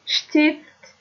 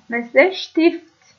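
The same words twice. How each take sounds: First: شتیفت said with sht at the start; German st as sht. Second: شتیفت said slowly, st turned into sht; German st as sht. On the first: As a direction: repeat شتیفت with a crisp sht. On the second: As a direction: draw out the sh in شتیفت. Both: Shown as a demonstration.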